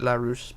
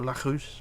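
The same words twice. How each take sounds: First: The name is said with an English accent. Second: The name is said with a French accent. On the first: "I pronounce it Larousse" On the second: "the French pronunciation is Larousse"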